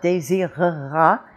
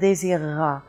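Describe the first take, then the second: First: The middle mute e is pronounced. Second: The middle mute e is dropped. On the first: The speaker calls it wrong. "It's not désirera" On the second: The speaker calls it right. "We're dropping the muti"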